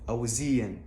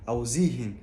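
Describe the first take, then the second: The two takes are said the same way.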